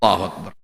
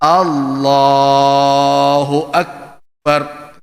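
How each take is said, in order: First: It is said quickly, with the vowels rushed. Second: It is said slowly, each vowel fully held. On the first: The follower rushes and finishes before the leader. The speaker calls it wrong. "main kompas saja" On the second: The leader pronounces every vowel carefully. The speaker calls it right. "imamnya menjaga harakatnya"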